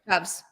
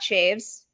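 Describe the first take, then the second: First: One syllable with a short 'ah' vowel. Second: One syllable with a long 'ay' vowel. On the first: The speaker calls it right. "it's Michael Shavs" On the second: The speaker calls it wrong. "It is not Shaves"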